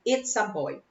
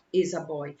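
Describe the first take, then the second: First: Put-on "It's a boy", with the t sounded; correct form. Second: Put-on "is a boy", the t of "it's" left out; wrong form. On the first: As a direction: say "It's a boy" with a ts ending on the first word. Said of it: "Eu tenho que usar o it". (forma correta, "It's a boy" com o t) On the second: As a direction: say "is a boy" with no t in the first word. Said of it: "não tem como usar". (forma errada, "is a boy" sem o t) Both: Shown as a demonstration.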